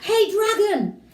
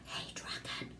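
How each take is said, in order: First: It is shouted very loudly. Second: It is whispered very softly.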